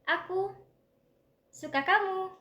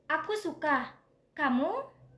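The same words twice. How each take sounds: First: The voice falls on the final word. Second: The voice rises on the final word. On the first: I like you. "pernyataan kalau aku menyukai kamu" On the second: I like this, and do you like it too? "aku suka buah ini dan kamu, apakah kamu juga menyukainya?"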